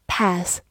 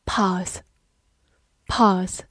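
First: "path" with a front short-a vowel, as in "cat"; American pronunciation. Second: "Path" with a long open "ah" vowel; British pronunciation. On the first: Teacher gives learners the American pronunciation, "path" with short-a. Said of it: "美式发音也可以读作". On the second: Teacher models the word for learners, British "Path" with long ah. British take before American version shown. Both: Shown as a demonstration.

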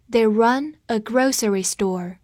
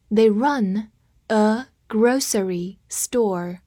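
First: Said in the usual way. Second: Slow, separated model sentence; slow reading. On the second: Shown as a demonstration. Teacher having learners repeat the example, slow reading. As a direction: read slowly, pausing between words. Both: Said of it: "跟我慢读一遍".

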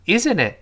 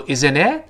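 First: "isn't it" starting high and falling on "it". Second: "Isn't it" with the pitch rising on "it"; wrong rising tone. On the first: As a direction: let "isn't it" drop at the end, final t unreleased. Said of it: "在这儿是降调". (正确示范：isn't it 句末降调) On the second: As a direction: end "Isn't it" going up like a real question. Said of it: "不要读". (错误示范：isn't it 句末升调) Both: Shown as a demonstration.

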